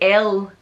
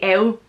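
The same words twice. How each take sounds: First: The L is a clear tongue-tip L. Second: The L sounds like a vowel, close to ow. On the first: The speaker calls it right. "I don't say L like I should" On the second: The speaker calls it wrong. "I say L. I'm saying L as in more like ow"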